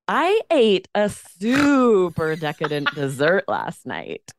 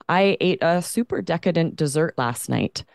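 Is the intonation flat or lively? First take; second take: lively; flat. First: The voice moves lively and varied throughout. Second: The voice stays flat and monotone throughout. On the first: The speaker calls it right. "Whereas this is benign intonation" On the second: The speaker calls it wrong. "That's a very boring intonation"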